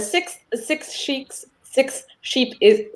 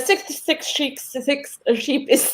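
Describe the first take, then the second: First: It is said slowly and carefully. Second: It is said at a faster pace. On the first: "I'm gonna try attempt slowly" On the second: "I'm gonna do it a little bit faster"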